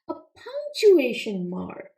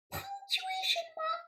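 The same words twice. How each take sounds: First: Punctuation said firmly and clearly, correcting puncture; stress on punctuation. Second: High, soft, baffled frog puppet repeating the word; puzzled puppet. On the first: Shown as a demonstration. Teacher corrects the frog puppet, stressing punctuation. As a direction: lean on punctuation, each syllable clear. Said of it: "Not a puncture". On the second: Acted.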